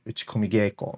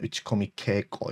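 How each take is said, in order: First: The second word begins with a soft G sound. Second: The second word begins with a hard K sound. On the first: The speaker calls it right. "the K gets softened to a G" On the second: The speaker calls it wrong. "rather than"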